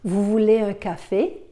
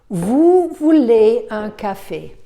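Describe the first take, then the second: First: The voice rises at the end. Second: The voice falls at the end.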